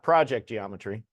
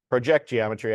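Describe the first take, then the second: First: The stress is on the first syllable. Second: The stress is on the second syllable. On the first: The speaker calls it wrong. "not project geometry" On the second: The speaker calls it right. "as in like a projector or projectile"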